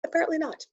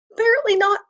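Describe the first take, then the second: First: Resigned. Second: High, loud, exasperated apparently not. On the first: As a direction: sigh it out, giving up. Repeat, softer resigned echo. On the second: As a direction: squeal it in mock despair. Disappointed about page not ready. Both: Real, not acted.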